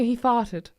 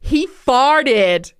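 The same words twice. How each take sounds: First: It is said in a Southern English accent. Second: It is said in an American accent. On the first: "a Southern English farted" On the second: "the purely American"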